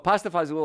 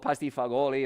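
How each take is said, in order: First: The second word is shortened to one syllable. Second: The second word is said with all its syllables.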